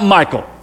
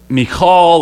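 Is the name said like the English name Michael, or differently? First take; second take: like Michael; differently. First: The name sounds like the English name Michael. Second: The name sounds different from English Michael. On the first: The speaker calls it wrong. "It's not Michael" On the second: The speaker calls it right. "but it's Michal"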